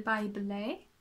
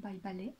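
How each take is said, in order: First: "ballet" with an English ending, ba-LAY, lifted at the end; English-style BALLET. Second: "ballet" in French, open "ba" and a pure short "lè". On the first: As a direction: say "ballet" the English way, second syllable gliding to "lay". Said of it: "I really need to stop doing that". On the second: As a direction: say "ballet" as a French speaker, no glide at the end. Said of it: "Say it properly". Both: Real, not acted.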